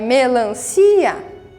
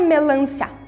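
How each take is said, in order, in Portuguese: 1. O 'i' e o 'a' finais estão separados. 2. O 'i' e o 'a' finais estão juntos. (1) "Ela não faz um som só. Ela é melancia" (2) "A palavra não é melancia"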